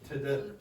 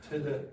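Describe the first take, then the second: The two takes are said the same way.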